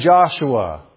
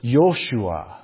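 First: The name begins with a J sound. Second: The name begins with a Y sound. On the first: This is the usual English pronunciation. "So we say Joshua" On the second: This is the original Hebrew pronunciation. "but the name was Joshua"

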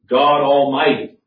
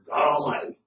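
First: It is said plainly and reverently, as a name. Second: It is said flippantly, as an exasperated exclamation. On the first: It names God. The speaker calls it right. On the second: It expresses being disturbed about something. The speaker calls it wrong.

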